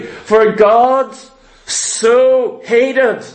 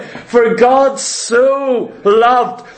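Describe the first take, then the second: First: Said in the usual way. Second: "For God so loved" stretched out very slowly, leaning on "God"; slow emphatic reading. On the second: Shown as a demonstration. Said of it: "See that word "so"?".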